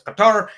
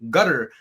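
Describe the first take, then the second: First: It is said in the formal way. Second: It is said the way locals say it. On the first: This is the formal way to say it. "if it's formal" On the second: This is how people there say it. "the locals say"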